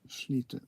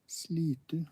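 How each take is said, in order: First: It begins with an sh sound. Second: It begins with a plain s sound. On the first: This is how people actually say it. "it's pronounced uh, Slitu. Sh- Slitu" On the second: This follows the spelling. "it's also written Slitu"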